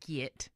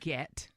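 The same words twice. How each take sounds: First: The word is said loosely, without careful enunciation. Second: The word is said crisply, with careful enunciation. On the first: The speaker calls it wrong. "don't say get" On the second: The speaker calls it right. "say get"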